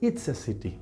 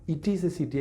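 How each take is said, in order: First: Pronoun and verb are merged into one word. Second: Pronoun and verb are said as separate words. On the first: "I can say" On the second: "instead of"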